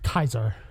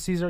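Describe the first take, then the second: First: The name begins with a hard K sound. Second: The name begins with a soft S sound. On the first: This is how the game's characters say it. The speaker calls it wrong. "it's Kaiser" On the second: This is the usual way of saying the name. The speaker calls it right. "If they pronounce it Caesar"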